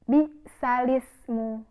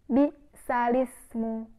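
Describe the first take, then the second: No difference in how they are said.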